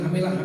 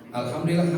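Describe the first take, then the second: First: It is rushed and clipped very fast. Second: It is said at a normal, unhurried pace.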